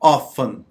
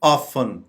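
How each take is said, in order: No difference in how they are said.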